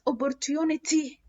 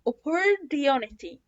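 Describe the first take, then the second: First: The t between vowels is a clear t. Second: The t between vowels sounds like a soft d. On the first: The speaker calls it wrong. "ما اسمهاش opportunity" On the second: The speaker calls it right. "اسمها opportunity"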